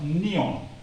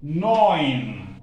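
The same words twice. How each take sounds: First: Neon read by its letters, two syllables; spelling pronunciation. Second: Neun drawn out as "noyn", loud; correct German pronunciation. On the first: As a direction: misread it as English Neon. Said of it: "This is how it is spelled". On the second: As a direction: model Neun loudly with an "oy" glide. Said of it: "This is how it is pronounced". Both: Shown as a demonstration.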